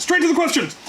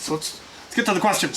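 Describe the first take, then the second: First: Much higher, punchy call to jump in; excited host kicking off the questions; eager announcement. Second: Said in the usual way. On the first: Real, not acted. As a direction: cheer it out like a host rallying.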